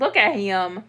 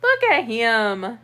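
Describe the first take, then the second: First: Said in the usual way. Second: Cooing. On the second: Real, not acted. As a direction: coo it slowly at the cat. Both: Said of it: "repeated to cat".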